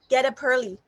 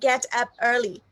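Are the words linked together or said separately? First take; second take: linked; separately. First: The final consonants link into the next vowels. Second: The words are said separately, without linking. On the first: The speaker calls it right. "we have to make a link together" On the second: The speaker calls it wrong.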